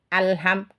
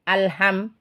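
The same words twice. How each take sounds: First: The l sound flows on briefly. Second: The l sound is cut off abruptly. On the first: The speaker calls it right. "Harus dialirkan" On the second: The speaker calls it wrong. "bukan alham ... Kalau cuma alham, itu cuma tertahan aja, tidak ada mengalirnya"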